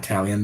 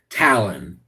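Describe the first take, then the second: First: "Talion" with an extra ee sound before the last syllable; mistaken pronunciation with I. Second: "Talon" in two syllables, TAL-un; corrected pronunciation without I. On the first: Streamer rejects his slip, "Talion" said with an added ee sound. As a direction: say "Talion" in three syllables, TAL-ee-un. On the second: Streamer corrects himself, "Talon" said as two syllables, TAL-un. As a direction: say "Talon" with no ee sound, low and even. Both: Shown as a demonstration. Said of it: "There's no I".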